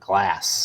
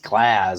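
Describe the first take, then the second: First: The syllable is said with an s sound. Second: The syllable is said with a z sound. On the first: The speaker calls it wrong. "not glass" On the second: The speaker calls it right. "I think it's glass ... with a Z"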